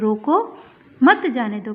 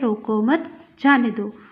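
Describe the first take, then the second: First: The pause comes after 'roko'. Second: The pause comes after 'mat'.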